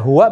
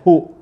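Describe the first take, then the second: First: The word has two syllables, ending in wa. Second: The word is one short syllable, hu. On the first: "Bisa dibaca huwa" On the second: "bisa dibaca hu"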